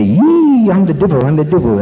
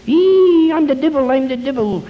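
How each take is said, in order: First: High squealed devil shriek, loud at the start; mock devil. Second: Very high, long squeal falling off into the words; mock devil. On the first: Priest coaching the wife to scare her husband, mock devil cry. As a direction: wail it high like a pretend devil. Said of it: "Get out there and, and say". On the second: Wife jumps out at drunk husband, hammed-up devil shriek. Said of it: "she jumps out in front of him".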